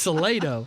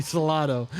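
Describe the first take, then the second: First: Salado as suh-LAY-doh; local mispronunciation. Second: Salado as suh-LAH-doh; correct Spanish pronunciation. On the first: Host giving in to the local usage, Salado as suh-LAY-doh. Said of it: "you know, it's Salado". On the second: Host amused at how it should be said, Salado as suh-LAH-doh. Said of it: "that should be Salado". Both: Shown as a demonstration.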